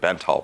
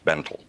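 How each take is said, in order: First: The name ends with a 'tall' sound. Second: The name ends with a 'tell' sound. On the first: This is the commonly used pronunciation. The speaker calls it wrong. "everybody knows it as the Bentall procedure" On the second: This is the actual pronunciation. The speaker calls it right. "it's actually pronounced Bentel"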